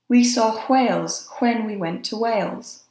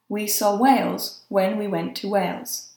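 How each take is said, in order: First: The WH words start with a breathy H. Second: The WH words start with a plain W.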